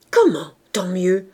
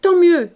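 First: Loud, slow outraged question; indignant echo. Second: Loud, brusque retort; curt dismissal. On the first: Wife throwing husband's words back, indignant echo. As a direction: stretch it out in disbelief. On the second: Man brushing off his wife's outcry, curt dismissal. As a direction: throw it back hard and unbothered. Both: A narrator's reading.

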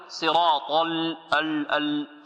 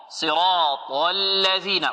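First: صراط الذين with ال said wrongly; wrong pronunciation demo. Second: صراط الذين drawn out slowly; measured tajweed reading; slow Quran recitation. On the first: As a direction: deliberately botch the ال. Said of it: "خطأ هذا". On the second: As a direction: recite it long and deliberate. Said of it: "teacher recites the verse". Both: Shown as a demonstration.

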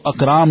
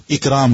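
First: اکرام read "akram" with an open a; the reading to avoid, "akram"; wrong vowel. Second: اکرام read "ikram" with a short i; the proper "ikram" of اکرام; correct vowel. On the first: Teacher warns the student against saying "akram". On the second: Teacher tells the student to say "ikram". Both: Shown as a demonstration. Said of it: "اکرام نہیں پڑھنا اس کو، اکرام کہنا ہے".

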